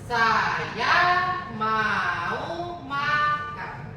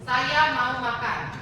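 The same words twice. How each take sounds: First: The sentence is said with distinct tones on syllables. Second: The sentence is said with ordinary, untoned speech pitch. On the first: "Beda kalau di dalam bahasa Mandarin" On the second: "Apakah ada nadanya menurut kalian? Enggak"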